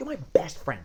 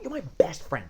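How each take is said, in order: First: The tone sounds warm, eager and affectionate. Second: The tone sounds warm, eager and affectionate.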